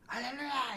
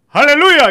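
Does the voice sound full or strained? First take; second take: strained; full. First: A strained, grinding voice pushed from the throat. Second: A full, loud voice supported from the belly.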